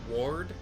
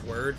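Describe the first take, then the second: First: The vowel sounds like the one in 'ward'. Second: The vowel sounds like the one in 'word'. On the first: "If you want to pronounce it Ward, like like I'm I am your ward, your protector" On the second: "or just Heaven's Word, like toward kind of"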